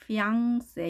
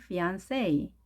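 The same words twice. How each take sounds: First: "피앙세" with 'ng' in place of n; French-style pronunciation. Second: "피안세" with a clear n before 'say'; English pronunciation. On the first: Teacher contrasting French with English, 'ng' sound in "피앙세". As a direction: nasalise the middle of "피앙세" as in French. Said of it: "프랑스 말로 하게 되면 N 발음이 응". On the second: Teacher giving the English version, clear n in "피안세". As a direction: say "피안세" as fee-ahn-say, no 'ng'. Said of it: "N으로 합니다". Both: Shown as a demonstration.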